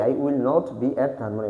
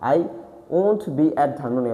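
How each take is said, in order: First: 'Will not' is said as two full words. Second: 'Will not' is contracted to one syllable.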